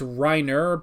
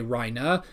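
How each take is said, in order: First: It is said as read in English spelling. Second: It is said in a German-style pronunciation. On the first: This is how the name is written. "how the character names are spelled" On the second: This is how the show's characters say it. "but they say Reina"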